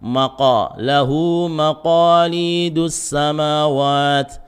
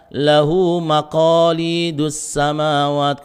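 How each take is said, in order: First: "Maqa" stopped at the very back of the tongue; thick qaf. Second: Chanted "lahu maqalidus samawat" with a lighter k-like "qa"; "qa" in "maqalidus" without the raised tongue back; under-thickened qaf. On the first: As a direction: recite "maqalidus" with a heavy, o-coloured qaf. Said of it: "huruf qaf yang ditebali". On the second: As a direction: show the mistake, "maqalidus" not heavy enough. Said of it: "kurang tebal". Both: Shown as a demonstration.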